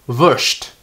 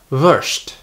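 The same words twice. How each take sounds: Both takes have the same delivery.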